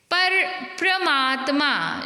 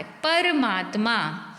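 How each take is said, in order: First: परमात्मा said slowly as "pra-maatmaa"; wrong प्र cluster. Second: परमात्मा said slowly as "par-maatmaa"; slow, clear "par" in परमात्मा; full र. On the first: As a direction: join प and र in परमात्मा. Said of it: "लिखा है प्र नहीं होता". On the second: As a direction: open परमात्मा with "par", not "pra". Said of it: "बल्कि पूरा र आता है". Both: Shown as a demonstration.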